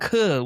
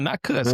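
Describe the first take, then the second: First: The word ends with a breathy h sound. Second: The word ends with an s sound. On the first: The speaker calls it right. "cuh with an H" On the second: The speaker calls it wrong. "No, not cuss"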